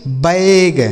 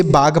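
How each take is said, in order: First: बैग with the vowel of "bag"; correct "bag" sound. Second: बाग with a long aa vowel, the wrong way; wrong reading of bag; wrong pronunciation. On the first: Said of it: "आय का उच्चारण निकल रहा है ना". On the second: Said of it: "गलत तरीके से इसे बाग पढ़ देंगे". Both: Shown as a demonstration.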